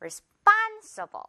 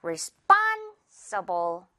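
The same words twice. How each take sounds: First: Responsible repeated high, span lifted; rising-pitch replay of responsible; high stressed repeat. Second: Responsible slow, with span hit hard; slow teaching model of responsible; stress on span. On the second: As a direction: drag out responsible and punch span. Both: Shown as a demonstration. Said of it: "span 이렇게 한 번 해주는 거죠".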